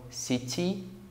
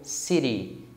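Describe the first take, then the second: First: It is said in a British accent. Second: It is said in an American accent. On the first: "que é o inglês britânico" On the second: "que é pronunciado no Canadá e nos Estados Unidos"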